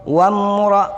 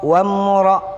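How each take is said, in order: The two takes are said the same way.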